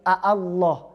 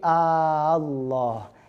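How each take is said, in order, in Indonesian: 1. Vokal kedua dilunakkan dan dibaca pendek. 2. Vokal kedua dipanjangkan. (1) "bukan lagi"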